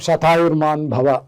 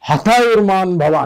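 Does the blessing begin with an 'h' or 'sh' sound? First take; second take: sh; h. First: The first word begins with an 'sh' sound. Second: The first word begins with an 'h' sound. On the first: It wishes a long life of a hundred years. "అనేది మామూలు అన్నమాట" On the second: It sounded like a wish for death. "అస్సామీస్లో సాని హాగా పలుకుతారు"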